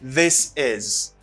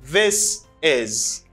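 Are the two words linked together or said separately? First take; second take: linked; linked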